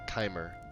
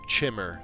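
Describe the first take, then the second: First: The first vowel is a long 'eye' sound. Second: The first vowel is a short 'i' sound.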